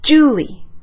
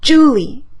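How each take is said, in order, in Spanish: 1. La sílaba acentuada es la primera. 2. La sílaba acentuada es la primera.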